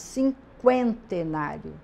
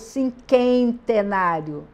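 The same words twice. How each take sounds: First: A weak U sound follows the K. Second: No U sound is heard after the K. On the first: The speaker calls it right. "eu falo cinquentenário" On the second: The speaker calls it wrong. "Eu não falo cinquentenário"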